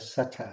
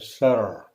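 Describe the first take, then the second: First: It is said in a non-American accent. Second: It is said in an American accent. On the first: The speaker calls it wrong. "you don't say Sutter" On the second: The speaker calls it right. "you say Sir"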